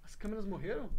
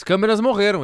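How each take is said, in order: First: Softly asking, almost under breath; barely-there worried question; quietly. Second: Loud, clear repeat of the question; louder. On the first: Real, not acted. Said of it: "ele falou baixinho". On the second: Shown as a demonstration. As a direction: say it out loud for all. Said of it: "repeats it louder".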